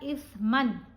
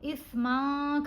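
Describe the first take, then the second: First: The final n is pronounced clearly. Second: The final n is dropped entirely. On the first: The speaker calls it right. "यहाँ पर हमने पढ़ा इस्मन" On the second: The speaker calls it wrong. "इस्मा करके नहीं पढ़ना"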